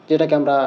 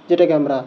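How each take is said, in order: The two takes are said the same way.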